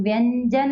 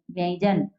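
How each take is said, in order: First: व्यंजन as "vyan-jan", with a clear n; wrong n nasal. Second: व्यंजन as "vyain-jan", nasal y before j; palatal nasal glide. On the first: Teacher showing what we will not say, n sound. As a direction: put a held n in व्यंजन. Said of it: "हम व्यंजन नहीं कहेंगे". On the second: Teacher giving the correct pronunciation, palatal nasal glide. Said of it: "तो उसका उच्चारण हमें". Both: Shown as a demonstration.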